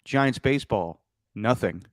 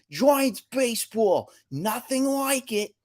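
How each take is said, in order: First: Sardonic deadpan. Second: Slow, high mock East Coast announcer; hammed-up Boston New York accent. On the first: Retold or imitated. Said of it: "as some fans just say now". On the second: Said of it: "weird East Coast accent".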